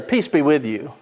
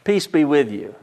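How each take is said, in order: First: It is said in a rote, offhand way. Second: It is said in a rote, offhand way.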